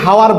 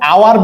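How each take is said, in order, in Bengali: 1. শব্দটি একটি h ধ্বনি দিয়ে শুরু হয়। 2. শব্দটি একটি স্বরধ্বনি দিয়ে শুরু হয়।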